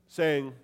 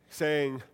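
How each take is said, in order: The two takes are said the same way.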